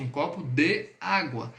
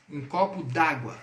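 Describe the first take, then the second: First: "de água" as two separate words; uncontracted form. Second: "d'água" run together as one word, slow; contracted form. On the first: Teacher unpacks the contraction for students, separated words. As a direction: pull "de" and "água" apart, the "de" fully sounded. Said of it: "De água aí foi contraído". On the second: Teacher shows students the contraction, slow contracted demo. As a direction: say "copo d'água" contracted, slowly. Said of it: "quando a gente fala assim em português". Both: Shown as a demonstration.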